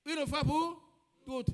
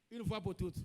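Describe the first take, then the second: First: "pour" raised high and loud, then a pause before "toutes"; call-and-response prompt. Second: Said in the usual way. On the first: Real, not acted. Preacher to congregation, prompting them to finish, "pour" loud and rising. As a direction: push up loudly on "pour", hold back "toutes". Repeats loudly for congregation to complete.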